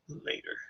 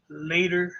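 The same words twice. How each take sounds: First: Last "later." whispered away to nothing; fading whisper. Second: Said in the usual way. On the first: Real, not acted. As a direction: breathe "later." out, almost silent.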